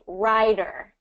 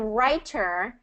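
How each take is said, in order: First: The middle consonant is a soft D sound. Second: The middle consonant is a crisp T sound. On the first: The speaker calls it right. "say this for me" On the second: The speaker calls it wrong. "instead of writer"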